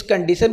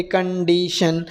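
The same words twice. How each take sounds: First: Said in the usual way. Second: कंडीशन slowly, syllable by syllable; broken into syllables. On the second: Shown as a demonstration. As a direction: drag out कंडीशन in clear parts for pupils to copy. (कंडीशन को धीरे-धीरे टुकड़ों में बोलें) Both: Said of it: "कंडीशन को भी हम break करेंगे".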